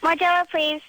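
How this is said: It is said with high energy and zest.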